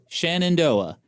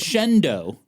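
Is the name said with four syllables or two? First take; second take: four; two. First: The name is said in full with four syllables. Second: The name is shortened to two syllables. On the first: The speaker calls it right. "That looks like a word I know how to pronounce" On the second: The speaker calls it wrong. "And they pronounce it as"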